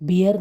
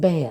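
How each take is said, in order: First: The vowel sounds like the one in 'beer'. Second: The vowel sounds like the one in 'bare'. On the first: The speaker calls it wrong. "ബിയർ എന്ന് പറയുന്നത് തെറ്റാണ്" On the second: The speaker calls it right. "It's ബെയർ"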